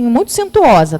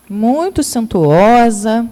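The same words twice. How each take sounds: First: Said in the usual way. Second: "Muito suntuosa" drawn out at half speed, weight on "muito"; "Muito suntuosa" spoken slowly and deliberately, the second time stressed; slow emphasis. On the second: Shown as a demonstration. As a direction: stretch "Muito" slowly to stress how grand it was.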